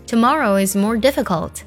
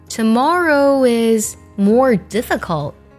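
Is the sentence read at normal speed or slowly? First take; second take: normal; slowly. First: It is read at normal speed. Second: It is read slowly.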